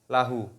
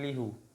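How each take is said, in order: First: The first vowel is an a sound. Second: The first vowel is an i sound. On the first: The speaker calls it right. "tapi menjadi lahu" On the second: The speaker calls it wrong. "Bukan lihu"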